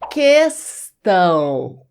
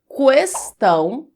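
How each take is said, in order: First: The u is silent: kestão. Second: The u is pronounced: kwestão.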